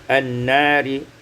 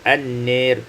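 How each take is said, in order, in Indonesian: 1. Vokal panjangnya adalah a terbuka biasa. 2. Vokal panjangnya condong ke bunyi e.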